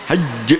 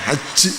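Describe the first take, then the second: First: It ends on a pressed consonant with no vowel. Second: It ends with an added final i vowel. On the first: The speaker calls it right. "tapi hajj" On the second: The speaker calls it wrong. "bukan haji"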